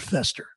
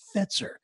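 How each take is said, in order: First: The middle sound is a plain 's'. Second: The middle sound is a 'ts' cluster. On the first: The speaker calls it wrong. "Sparky used to call him Mr. Fester" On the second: The speaker calls it right. "it's Mr. Fetzer"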